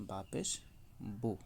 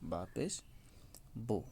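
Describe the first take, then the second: No difference in how they are said.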